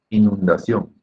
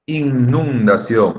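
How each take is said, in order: First: The first N sound is short. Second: The first N sound is drawn out long. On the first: The speaker calls it right. "Es solamente una N" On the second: The speaker calls it wrong. "Ese sonido incluso es un poco feo"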